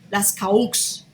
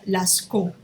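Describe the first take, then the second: First: The name is read letter by letter, Spanish-style. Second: The name is said with French pronunciation. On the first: The speaker calls it wrong. "suena feísimo" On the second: The speaker calls it right. "Esto es francés y se pronuncia Lascaux"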